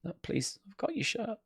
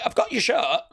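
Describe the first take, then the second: First: Mock kid plea. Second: Mock kid voice. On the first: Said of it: "What a lovely kid". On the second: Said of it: "And he's like".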